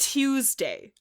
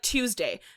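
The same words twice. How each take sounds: First: Each sound is pronounced clearly and separately. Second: The sounds run together in a relaxed way. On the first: The speaker calls it right. "pronouncing the T and the U and the E and the S" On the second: The speaker calls it wrong. "most people say like Tuesday"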